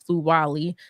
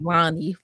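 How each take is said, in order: First: The last syllable starts with an l sound. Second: The last syllable starts with an n sound. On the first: The speaker calls it right. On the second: The speaker calls it wrong.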